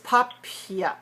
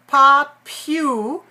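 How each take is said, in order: First: The second syllable is a reduced 'pia'. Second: The second syllable is a full 'pew'. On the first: The speaker calls it right. "it's popia" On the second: The speaker calls it wrong. "So it's not popu"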